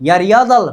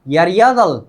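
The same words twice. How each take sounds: No difference in how they are said.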